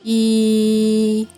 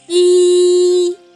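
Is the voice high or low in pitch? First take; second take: low; high. First: The voice is low in pitch. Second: The voice is high in pitch. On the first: "голос низький" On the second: "пищить високим голосом"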